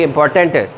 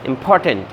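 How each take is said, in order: First: The stress is on the last syllable. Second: The stress is on the second syllable. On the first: The speaker calls it wrong. "Instead of saying" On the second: The speaker calls it right. "पी पे यहाँ पर stress जो है वो आती है"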